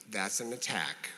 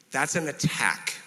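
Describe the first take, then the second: First: Low, soft, composed; name it very calmly, voice dropped. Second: Said in the usual way. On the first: Shown as a demonstration. Answering someone's non-apology, very calm. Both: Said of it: "just calmly say".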